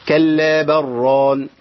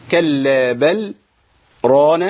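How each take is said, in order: First: Slow chant, l of بل merged into a doubled r, "barraan"; merged without sakt. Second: Slow chant, clear l in بل, silent pause, then ران; sakt before ران. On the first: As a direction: run بل ران together with no pause. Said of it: "وعدم السكت". (تلاوة بإدغام لام بل في راء ران دون سكت) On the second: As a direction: stop briefly after بل, then stretch ران. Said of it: "أنا كده عملت إيه؟ سكت". (تلاوة بالسكت بين بل و ران) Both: Shown as a demonstration.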